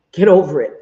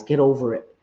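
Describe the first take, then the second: First: Loud, punched GET over it; emphatic dismissal. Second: Said in the usual way. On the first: Real, not acted. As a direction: hit it hard, telling critics off. Repeats it forcefully to critics.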